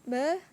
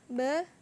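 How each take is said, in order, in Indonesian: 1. Vokalnya diucapkan dengan mulut setengah terbuka. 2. Vokalnya diucapkan dengan mulut setengah terbuka.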